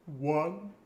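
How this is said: It is counted as if holding back a sob. "pretend to hold back a sob"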